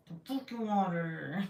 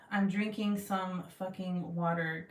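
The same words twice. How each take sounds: First: Mock-angry. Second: Said in the usual way. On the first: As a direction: growl it with pretend rage. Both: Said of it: "talked like that".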